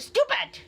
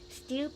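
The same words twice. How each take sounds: First: It is shouted loudly and angrily. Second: It is said softly and gently.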